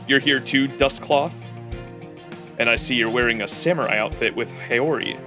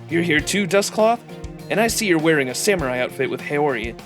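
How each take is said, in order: First: It is said in a heavier, deeper voice. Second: It is said in a much lighter voice. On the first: The speaker calls it wrong. "That is not how he sounds like" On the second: The speaker calls it right. "Bro has a way lighter voice"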